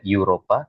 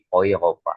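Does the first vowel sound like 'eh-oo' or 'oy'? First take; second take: eh-oo; oy. First: The first vowel sounds like 'eh-oo'. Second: The first vowel sounds like 'oy'. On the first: The speaker calls it wrong. "Eropa tidak menjadi eh, Eropa" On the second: The speaker calls it right. "tapi Eropa"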